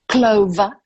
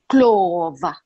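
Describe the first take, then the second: First: It is said without an African accent. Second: It is said with an African accent.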